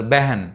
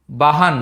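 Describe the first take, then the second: First: బెహన్ said beh-hen, with an e after the b; బెహన్ with e in place of the written a; Hindi pronunciation. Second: బహన్ read as spelled, with a plain a sound, bah-han; బహన్ with a plain a, not the Hindi e; literal spelling reading. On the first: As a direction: give బెహన్ the e vowel the way Hindi speakers do. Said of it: "బెహన్ అని చదువుతారు". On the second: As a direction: say బహన్ exactly as written, both vowels a. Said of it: "మామూలుగా అయితే బహన్ అని చదవాలి". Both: Shown as a demonstration.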